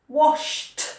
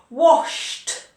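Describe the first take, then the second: No difference in how they are said.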